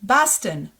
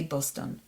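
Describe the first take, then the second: First: Boston with open AH, BAHS-tn; English pronunciation. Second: Boston with round O in both syllables; Hebrew pronunciation. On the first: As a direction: say "Boston" the American way. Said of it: "Does it sound familiar?". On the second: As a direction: say "Boston" the Hebrew way, BOS-TON. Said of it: "In Hebrew, we say Boston". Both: Shown as a demonstration.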